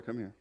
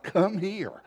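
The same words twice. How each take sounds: First: Much softer, lower call to come over; hushed summons. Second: Insistent summons. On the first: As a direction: imitate a wife's discreet, quiet beckoning. Wife beckons him over, first time. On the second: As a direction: imitate a wife's higher, insistent beckoning. Wife repeats summons after his "What?. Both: Retold or imitated.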